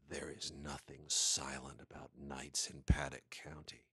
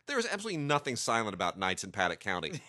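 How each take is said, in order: First: It is said in a dramatic movie-trailer voice. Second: It is said casually, like ordinary chat.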